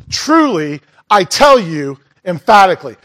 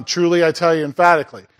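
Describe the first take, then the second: First: "Truly" set apart by a pause, "tell" stressed; solemn emphasis. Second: Said in the usual way. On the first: Shown as a demonstration. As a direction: give "Truly" and "I tell you emphatically" each full weight. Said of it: "just stressing the importance". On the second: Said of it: "So just stressing".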